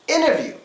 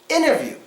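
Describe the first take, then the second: The two takes are said the same way.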